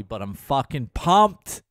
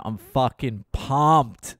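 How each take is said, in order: First: Said in the usual way. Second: Slow, savoured excitement, stretching pumped out; drawn-out pumped. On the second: Real, not acted. Comic to podcast listeners, slowly savouring the trip excitement. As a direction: relish the word pumped, let it linger.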